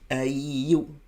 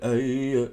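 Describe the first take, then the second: First: The word ends with a full rounded 'oo' vowel. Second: The word ends with a lax, unrounded 'eh' vowel. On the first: The speaker calls it right. "If I don't do the woo fully" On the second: The speaker calls it wrong. "Your ya will sound like a yeah"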